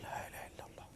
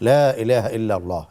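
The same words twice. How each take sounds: First: The phrase is said in a low voice. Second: The phrase is said in a loud voice. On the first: "নিম্নস্বরে হলো" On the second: "উচ্চস্বরে হলো"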